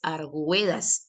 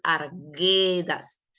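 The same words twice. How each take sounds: First: The U after the G is pronounced aloud. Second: The U after the G is silent. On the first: The speaker calls it wrong. "la palabra no es Arguedas" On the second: The speaker calls it right. "La U es muda, la U no está sonando"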